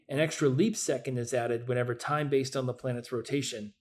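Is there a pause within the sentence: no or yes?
no. The sentence runs on without any pause. The speaker calls it right. "Makes more sense without a pause"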